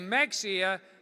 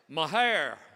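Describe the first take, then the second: First: The word sounds like Mex-ee-ah. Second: The word sounds like Ma-hair. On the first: The speaker is not from Texas. The speaker calls it wrong. "that's a dead giveaway you're not from Texas" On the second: The speaker is from Texas. The speaker calls it right. "Texans say it this way"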